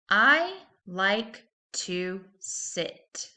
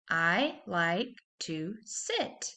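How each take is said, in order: First: It is read at a slower pace. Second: It is read at a faster pace.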